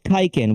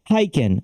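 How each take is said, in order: First: The name begins with a K sound. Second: The name begins with an H sound. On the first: The speaker calls it wrong. "they often pronounce it Kiken" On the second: The speaker calls it right. "it's pronounced Hyken"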